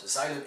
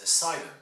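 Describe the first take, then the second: First: 'asylum' as a-ZY-lum, z in place of s; wrong 'asylum', like a-ZIGH-lum; z in asylum. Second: 'asylum' as a-SIGH-lum, hissed s and long i; S in asylum. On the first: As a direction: buzz the s of 'asylum' into a z, long i. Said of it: "it's not asylum". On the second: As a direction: say 'asylum' with a clean s, then 'eye'. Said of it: "It's a S and an I". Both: Shown as a demonstration.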